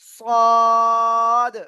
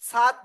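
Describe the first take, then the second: First: The letter name is said with a heavy sound. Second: The letter name is said with a thin sound. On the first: The speaker calls it right. "মোটা আওয়াজে পড়তে হবে" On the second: The speaker calls it wrong. "সাদ নয়"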